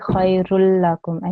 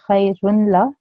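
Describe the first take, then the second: First: The n sound merges into a doubled l. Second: The n sound is pronounced before the l. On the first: The speaker calls it right. "That's the correct way of saying that" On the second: The speaker calls it wrong. "instead of saying khayrun la"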